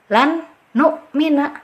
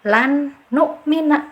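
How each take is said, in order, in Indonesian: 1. N pertama dibaca jelas dan terpisah. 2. N pertama dibaca jelas dan terpisah.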